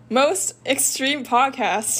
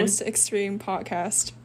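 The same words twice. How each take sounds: First: The name is said with strong intensity. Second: The name is said plainly, with little intensity. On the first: The speaker calls it right. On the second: The speaker calls it wrong.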